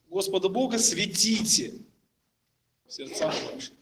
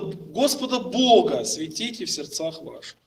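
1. Ударение падает на слово светите. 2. Ударение падает на слова Господа Бога. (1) "сделают ударение на слово светите" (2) "Он сделает ударение на слово Господа Бога"

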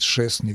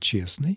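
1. Слово начинается со звука «ш». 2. Слово начинается со звука «ч».

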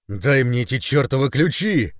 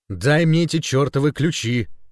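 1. Выкрикнуто очень громко. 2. Произнесено громче обычного. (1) "Еще громче ... рявкнула" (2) "Громче"

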